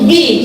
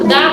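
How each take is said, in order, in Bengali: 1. স্বরধ্বনিটি একটি লম্বা 'ee' শব্দ। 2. স্বরধ্বনিটি একটি ছোট 'uh' শব্দ। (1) "ভাওয়েল দিয়ে শুরু হবে সেখানে বলবে দি" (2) "কনসোনেন্ট দিয়ে শুরু হবে সেটা কি হবে দা"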